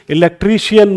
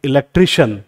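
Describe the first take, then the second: First: इलेक्ट्रीशियन mispronounced with 'shi-yan' at the end; wrong pronunciation. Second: इलेक्ट्रीशियन closing on a single 'shun'; correct pronunciation. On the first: Teacher tells students never to say it so, इलेक्ट्रीशियन mispronounced as 'shi-yan'. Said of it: "मत बोलना इसको". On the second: Teacher shows students how to say it from today, इलेक्ट्रीशियन correctly ending in 'shun'. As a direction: say इलेक्ट्रीशियन as 'i-lek-tri-shun'. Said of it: "जैसे हम बोलेंगे". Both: Shown as a demonstration.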